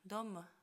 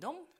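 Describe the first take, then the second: First: A faint e vowel follows the final m. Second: The word ends cleanly on the m sound. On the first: "он это «м» скажет и чуть-чуть произнесет «э»" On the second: "ты не можешь сказать просто «дом», а у него будет не «дом»"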